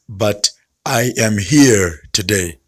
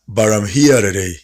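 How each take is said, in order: First: I am is said as two full words. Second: I am is joined into one contracted word. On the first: "You don't have to say" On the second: "All you need to do is to join them"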